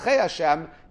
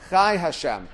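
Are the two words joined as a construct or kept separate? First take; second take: construct; separate. First: The two words are joined as one construct phrase. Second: The two words are kept separate, not joined. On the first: Life is treated as a part belonging to God. The speaker calls it wrong. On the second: God's life is God's own essence. The speaker calls it right. "We do not connect them"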